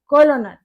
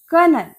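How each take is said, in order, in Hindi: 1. यह शब्द 'kol' ध्वनि से शुरू होता है। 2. यह शब्द 'ker' ध्वनि से शुरू होता है। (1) "लेकिन ये कॉलोनल नहीं है" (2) "वो हैं ये कर्नल"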